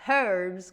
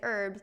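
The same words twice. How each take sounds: First: The word starts with a pronounced H, British-style. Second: The word starts with a silent H, American-style.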